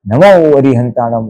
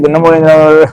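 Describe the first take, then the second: First: It is said calmly with joyful feeling. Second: It is rattled off very quickly. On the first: It is recited with devotion and understanding. The speaker calls it right. "उल्लास से बोलो" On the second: It is recited mechanically without attention. The speaker calls it wrong. "इतनी तेजी से राजधानी की"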